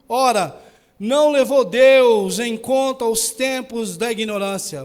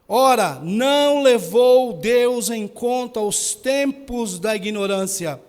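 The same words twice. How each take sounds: First: The verse is read at a normal pace. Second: The verse is read very slowly.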